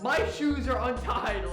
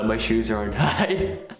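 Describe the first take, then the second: First: It is said with lots of energy and emotion. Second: It is said flat, with no energy or emotion. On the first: The speaker calls it right. "put some energy into it" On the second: The speaker calls it wrong. "you can't just be like"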